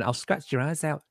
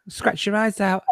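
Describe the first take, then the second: First: Softer replay of the tiger growl, much quieter; lightly imitating a growl while re-telling it; mock beast growl. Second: A growling beast voice, slightly higher; failed Chewbacca growl. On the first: Retelling the growl to new viewers, a quiet mock growl. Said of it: "to see me going". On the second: Acted. Trying a Chewbacca growl for the stream, a wobbly beast voice. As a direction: growl it like a clumsy tiger.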